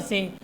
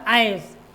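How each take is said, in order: First: It begins with a short 'i' sound. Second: It begins with an 'eye' sound. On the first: The speaker calls it wrong. "लेकिन ये क्या है हमारा, गलत है।" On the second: The speaker calls it right. "वो आयस के रूप में होता है"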